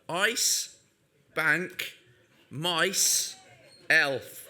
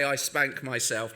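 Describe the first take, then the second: First: Each word is said slowly and separately. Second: The words run together quickly as one phrase. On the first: It is read as a harmless team name. "I have to say this one carefully" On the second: It sounds like a rude confession. "if I did say it fast"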